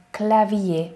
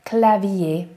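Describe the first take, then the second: First: Clavier as klavie, final R silent; French clavier again. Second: Clavier as klavie, no R; French clavier. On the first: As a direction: repeat clavier without R. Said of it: "itt az R-et nem ejtjük". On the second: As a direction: end clavier on ié. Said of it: "az ié". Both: Shown as a demonstration.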